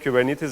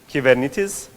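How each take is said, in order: First: It is pronounced the usual English way. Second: It is pronounced the original Greek way. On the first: The speaker calls it wrong. "everyone says it wrong" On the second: The speaker calls it right. "the right way of saying Kubernetes is"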